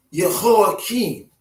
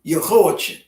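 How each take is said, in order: First: Jehoiakim as yeh-ho-ah-KEEN; original-style pronunciation. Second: Jehoiachin with a CH near the end; alternate pronunciation. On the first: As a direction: end Jehoiakim on a long KEEN. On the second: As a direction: end Jehoiachin on a short chin. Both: Shown as a demonstration.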